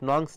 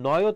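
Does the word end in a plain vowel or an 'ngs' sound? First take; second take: ngs sound; plain vowel. First: The word is said like 'nongs' with a consonant ending. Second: The word is said like 'noy' with a vowel ending. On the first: The speaker calls it wrong. "নংস না" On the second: The speaker calls it right. "উচ্চারণটা হবে নয় ও তৎপুরুষ"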